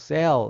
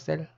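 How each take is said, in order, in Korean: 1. 영어처럼 발음했어요. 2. 한국식으로 발음했어요. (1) "원래 발음은 뭐 셀 이렇게 하는데" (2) "우리 외국인도 아니고 그냥 셀이라고 하면 되죠"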